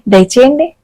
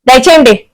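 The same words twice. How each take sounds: First: It sounds welcoming, like inviting someone inside. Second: It sounds dismissive, like telling someone to leave.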